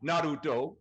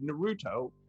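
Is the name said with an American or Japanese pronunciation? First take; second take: Japanese; American. First: It is said with a Japanese pronunciation. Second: It is said with an American English pronunciation. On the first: "if you want to go with the Japanese" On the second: "as they say in the United"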